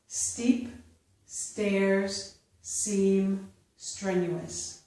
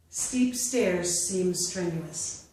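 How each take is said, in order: First: The sentence is read slowly. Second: The sentence is read at natural speed. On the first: "I will first read them slowly" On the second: "a second time at a more natural pace"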